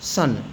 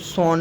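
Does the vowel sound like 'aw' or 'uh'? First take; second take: uh; aw. First: The vowel sounds like 'uh'. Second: The vowel sounds like 'aw'. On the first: The speaker calls it right. "ओ का उच्चारण आ भी निकलता है" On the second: The speaker calls it wrong. "इसको सॉन नहीं पढ़ेंगे"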